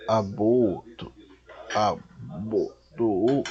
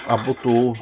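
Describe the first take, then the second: First: "abotou" drawn out in separate syllables; halting, stretched-out "abotou"; sounding out slowly. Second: Said in the usual way. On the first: Real, not acted. Sounding out a difficult word.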